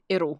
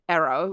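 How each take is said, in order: First: The R is a quick tongue tap. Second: The R has the tongue tip curled back. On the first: "You can hear that my tongue's going like duh when it comes across. It's like a double duh" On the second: "you can feel your tongue tip curling back"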